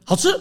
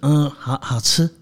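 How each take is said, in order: First: It sounds sincere and straightforward. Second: It sounds hesitant and reluctant, with a stammer.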